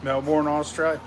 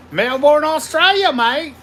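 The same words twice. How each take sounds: First: Said in the usual way. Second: Loud, high mock Aussie greeting; hammed-up Australian shout-out; big Aussie "Melbourne, Australia, mate"; Aussie accent.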